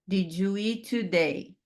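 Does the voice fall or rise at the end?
fall. The pitch falls at the end. It sounds like a statement, not a question. The speaker calls it wrong. "Isso não é uma pergunta"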